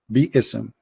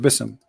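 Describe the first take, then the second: First: The word is said as two separate syllables. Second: The word is said as one short syllable. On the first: The speaker calls it right. "It is Bi-ism" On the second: The speaker calls it wrong. "it says Bism"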